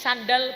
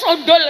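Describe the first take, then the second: First: The vowels are pronounced as open 'a' sounds. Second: The vowels are pronounced as rounded 'o' sounds. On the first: This is how it is said locally. "Kalau di sini sandal" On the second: This is how it is said in Surabaya. "berarti di Surabaya"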